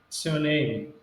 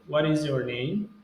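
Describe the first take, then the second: First: The opening words are squeezed into a fast reduced form. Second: Every word is said fully and clearly. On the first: "Uma forma aí para falar bem mais rápido" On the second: "Você também pode dizer What is your name?"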